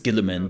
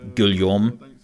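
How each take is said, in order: First: The name is pronounced the English way. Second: The name is pronounced the French way. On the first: The speaker calls it right. "I think it's Gilliman" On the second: The speaker calls it wrong. "I always say it in French and say Guillaume. It's completely wrong"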